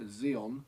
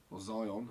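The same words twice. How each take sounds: First: "Xeon" said as ZEE-on; alternative pronunciation. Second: "Zion" said as ZY-on; alternative pronunciation. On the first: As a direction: say "Xeon" with a long ee first, ZEE-on. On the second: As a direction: say "Zion" to rhyme with lion. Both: Shown as a demonstration. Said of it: "however you say it".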